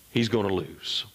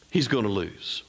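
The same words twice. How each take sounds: The two takes are said the same way.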